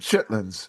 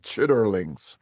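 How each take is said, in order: First: The word is shortened to two syllables. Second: The word is said with all three syllables. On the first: This is how people there commonly say it. "They call them chitlins" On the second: This follows how the word is written. "I'm trying to pronounce them uh, phonetically"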